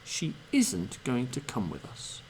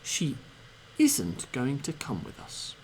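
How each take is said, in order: No difference in how they are said.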